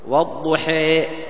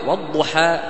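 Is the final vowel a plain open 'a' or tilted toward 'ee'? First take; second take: tilted; plain open. First: The final vowel leans strongly toward 'ee'. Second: The final vowel is a plain open 'a'. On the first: "مثال الإمالة الكبرى" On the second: "بفتح الشقين هذا يسمى فتح"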